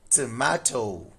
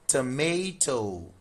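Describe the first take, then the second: First: It is said in a British accent. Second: It is said in an American accent. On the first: "In U K English, this is tomato" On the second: "But in U S, this is tomato"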